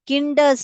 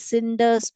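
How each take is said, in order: First: The word begins with a k sound. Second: The word begins with an s sound. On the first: The speaker calls it wrong. "हम इसको किंडर्स नहीं पढ़ते हैं" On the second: The speaker calls it right. "बल्कि सिंडर्स पढ़ते हैं"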